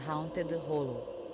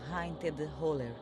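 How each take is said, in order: First: The last word ends with an 'oh' sound. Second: The last word ends with an 'er' sound. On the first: This is the proper form of the name. The speaker calls it right. "pronunciado corretamente seria Haunted Hollow" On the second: This is how the place is called locally. The speaker calls it wrong. "chamado Haunted Holler"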